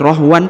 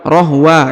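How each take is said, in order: First: The word ends with a final n sound. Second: The word ends on a vowel, without n. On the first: The speaker calls it wrong. "bukan lagi rohwan" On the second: The speaker calls it right. "tapi rohwa ya"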